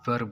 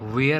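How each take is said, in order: First: The vowel sounds like 'er'. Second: The vowel sounds like 'air'. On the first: The speaker calls it right. "वेयर नहीं बल्कि वर बोलते हैं" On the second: The speaker calls it wrong. "कुछ बच्चे इसको वेयर बोलते हैं"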